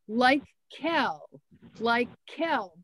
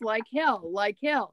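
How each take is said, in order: First: It is said slowly and clearly. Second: It is said fast, blurring together.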